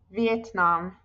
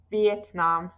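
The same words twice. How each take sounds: The two takes are said the same way.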